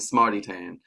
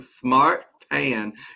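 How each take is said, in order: First: The first word ends with an added vowel sound. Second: The first word ends without a vowel sound. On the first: "Or is it smarty as in smarty tan?" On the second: "Is it supposed to be like the E silent?"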